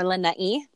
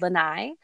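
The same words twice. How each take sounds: First: The name is said in a careful, respectful way. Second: The name is said in a casual, everyday way.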